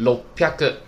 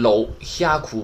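First: The middle syllable starts with a p sound. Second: The middle syllable starts with an h sound. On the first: The speaker calls it right. "还得把瞎变成啪" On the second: The speaker calls it wrong. "你就不能读成楼瞎哭，不行吧？"

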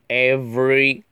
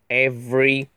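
No difference in how they are said.

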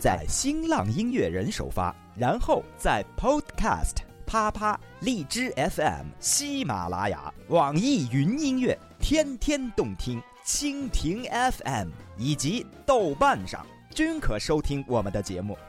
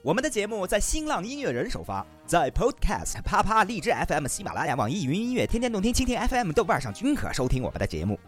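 First: The list is read slowly. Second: The list is read fast.

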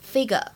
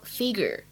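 First: It ends without an r sound. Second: It ends with an r sound and a glide. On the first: "在英式英语当中，你可以把它读成figure" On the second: "在美音当中的话呢，我们会读的时候末尾加一个卷舌音"

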